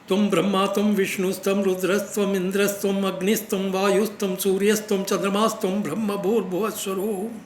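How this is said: All phrases run together in one breath.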